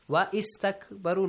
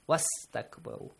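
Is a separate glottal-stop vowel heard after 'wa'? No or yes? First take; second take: yes; no. First: A glottal stop and vowel start the 'ist' part. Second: The 'wa' runs straight into 'st' without a stop. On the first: The speaker calls it wrong. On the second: The speaker calls it right. "You ignore the Hamzatul Wasl"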